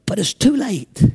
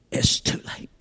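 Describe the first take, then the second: First: Said in the usual way. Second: "It's too late" breathed in a whisper. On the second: Acted. Repeated verdict, whispered.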